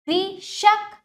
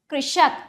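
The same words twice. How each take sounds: First: कृषक in two parts, कृ... षक, higher; broken into syllables. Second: Said in the usual way. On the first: Shown as a demonstration. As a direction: separate कृ from षक in कृषक. (कृषक को तोड़कर: कृ... षक) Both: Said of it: "तोड़कर पहले".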